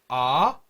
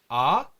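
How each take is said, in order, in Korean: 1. 끝으로 갈수록 음이 확 올라가요. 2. 끝으로 갈수록 음이 확 올라가요.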